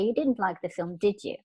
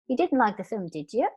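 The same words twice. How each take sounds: First: The pitch falls on the tag question. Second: The pitch rises on the tag question. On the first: The speaker is sure and is not really asking. "when you're quite sure about what's going on, intonation goes down" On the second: The speaker is unsure and is really asking. "if you're not quite sure, intonation of the tag question goes up"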